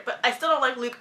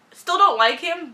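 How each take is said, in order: First: Said in the usual way. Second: Don't stressed, higher, slower and louder; emphatic dislike. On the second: Shown as a demonstration. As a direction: lean hard on don't.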